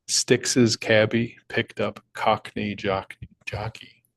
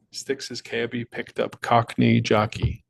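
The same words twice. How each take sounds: First: Stumbling slowly through the tongue twister; slow careful read. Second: Slow, careful tongue twister; slow clean retake. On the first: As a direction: read it slow and deliberate, tripping on jockey. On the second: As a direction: get it right this time, slowly. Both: Shown as a demonstration. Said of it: "Tongue twister".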